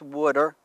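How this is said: It is said in a New Jersey accent.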